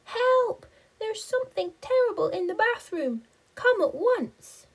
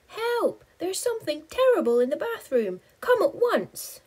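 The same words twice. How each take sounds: First: High, loud frightened plea; panicked high cry. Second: High, loud, fast panicked plea; panicked high cry. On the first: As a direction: yell for help in a fright. Spider's panicked call. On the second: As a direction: shriek for help in terror. Panicked call for help. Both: Acted.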